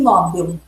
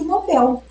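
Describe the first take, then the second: First: The stress is on the first syllable. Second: The stress is on the second syllable. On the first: This is how many people say it. The speaker calls it wrong. "Há pessoas que dizem" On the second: This is the standard form. The speaker calls it right. "A pronúncia considerada correta é"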